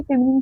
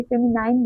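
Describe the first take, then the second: First: ফেমিনিন with a short "nin" ending; habitual pronunciation. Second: ফেমিনাইন with a long "nine" ending; alternative pronunciation. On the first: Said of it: "ছোটবেলা থেকে ফেমিনিন শিখেছি". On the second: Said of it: "ফেমিনাইন বলতে পারি না". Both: Shown as a demonstration.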